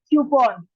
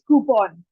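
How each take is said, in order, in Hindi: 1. यह शब्द 'kyoo' की आवाज़ से शुरू होता है। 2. यह शब्द सादे 'koo' की आवाज़ से शुरू होता है। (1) "द करेक्ट प्रोनाउंसिएशन इज क्यूपॉन" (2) "एक तरीका और है"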